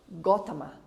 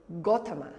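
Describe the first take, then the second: No difference in how they are said.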